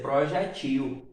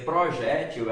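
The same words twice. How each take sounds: First: "projetil" stressed on the final syllable TIL; last-syllable stress on "projetil"; oxytone stress. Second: "projétil" stressed on the middle syllable JÉ; penultimate-syllable stress on "projétil"; paroxytone stress. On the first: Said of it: "tornando-se uma palavra oxítona". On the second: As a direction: say "projétil" as pro-JÉ-til, last syllable light. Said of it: "não é uma paroxítona". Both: Shown as a demonstration.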